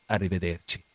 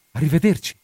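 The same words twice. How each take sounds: First: Low, quiet goodbye; hushed parting word, pitched down; soft farewell. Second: Said in the usual way. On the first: Acted. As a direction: answer the goodbye softly and low. Answering goodbye, lower and softer.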